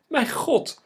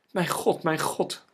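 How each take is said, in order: First: Very high, loud shriek of despair; desperate scream. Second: Higher, louder cry of distress; alarmed cry. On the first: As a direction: scream it out, utterly frantic. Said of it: "gilde Eline radeloos". (radeloos gillen) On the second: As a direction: call out twice in alarm. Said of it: "riep ze". (verschrikt uitgeroepen) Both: A narrator's reading.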